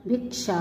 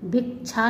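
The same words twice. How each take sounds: First: Said in the usual way. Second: भिक्षा as "bhik-chha"; mispronounced. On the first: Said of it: "होता है". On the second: Shown as a demonstration. Teacher showing students an error, भिक्षा mispronounced with chh. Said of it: "नहीं होता".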